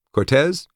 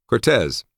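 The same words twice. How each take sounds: First: High, rising, firmer call of the name; rephrased command. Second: Higher, falling call, trying for calm; forced calm. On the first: Narrator rephrases a request to Cortez as an order, high and firm. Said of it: "Let me rephrase that". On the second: Narrator addresses a sloppy sleepyhead, trying for calm. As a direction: say the name with strained, mild patience. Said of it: "I said as calmly as I could". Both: A narrator's reading.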